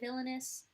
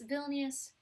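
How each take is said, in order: First: The second syllable is said as 'la'. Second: The second syllable is said as 'ni'. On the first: The speaker calls it wrong. "I say villainous ... and I knew it was wrong" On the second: The speaker calls it right. "Vilnius is how you pronounce it"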